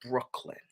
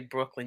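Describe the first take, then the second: First: The word is said with strong, forceful emphasis. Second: The word is said plainly, without extra force. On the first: This is how people from there say it. "you guys say it with emphasis" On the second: This is how outsiders say it. "when we say Brooklyn"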